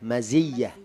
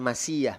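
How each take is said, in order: First: The middle consonant is a buzzing Z sound. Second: The middle consonant is a hissing S sound. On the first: The speaker calls it right. "maziyah. Pakai zai" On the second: The speaker calls it wrong. "yang tepat bukan masiyah"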